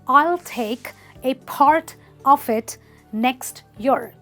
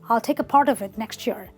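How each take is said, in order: First: Each word is pronounced fully and separately. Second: The words run together with sounds merged. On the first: "What he actually wanted to say is" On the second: "But he said"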